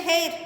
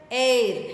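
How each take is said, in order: First: "hair" with the H sounded. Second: "Air" for hair, with no H; "Air", vowel first, H left silent. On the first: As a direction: say "hair" as spelt, starting on an audible H. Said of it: "actually we should say hair". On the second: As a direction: drop the H and start "Air" on the vowel. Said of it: "H is silent". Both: Shown as a demonstration.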